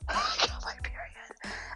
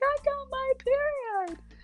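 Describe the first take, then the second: First: It is said quietly. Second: It is said very loudly.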